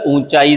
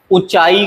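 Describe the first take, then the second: First: ऊंचाई with long nasal oo, oon-chaai; correct pronunciation. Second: ऊंचाई with short u, u-chaai; wrong pronunciation. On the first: Teacher correcting it, ऊंचाई said with long nasal oo. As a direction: lengthen the start of ऊंचाई. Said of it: "सही है". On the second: Teacher showing the mistake, ऊंचाई said with short first u. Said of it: "गलत है". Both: Shown as a demonstration.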